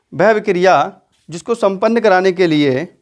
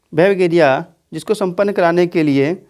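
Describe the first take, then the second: No difference in how they are said.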